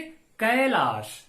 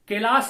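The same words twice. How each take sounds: First: The first vowel glides between two vowel sounds. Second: The first vowel is a single plain vowel. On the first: The speaker calls it right. "तो कैलाश का उच्चारण हम कैसे करेंगे?" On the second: The speaker calls it wrong. "नहीं"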